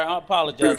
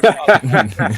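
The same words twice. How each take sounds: First: Said in the usual way. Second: Low, loud, exaggerated apology; mock solemn apology. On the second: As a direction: ham up a deep, grave sorry. Mock grave repeated apology.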